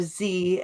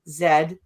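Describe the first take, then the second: First: The letter is said the American way, zee. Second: The letter is said the non-American way, zed.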